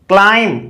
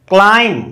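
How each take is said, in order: No difference in how they are said.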